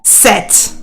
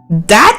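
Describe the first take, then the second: First: The th is forced in a strained German-accented way. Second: The th is replaced by a nearby easy sound. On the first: The speaker calls it wrong. "instead of set" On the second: The speaker calls it right. "it also sounds a lot better if you are going like that"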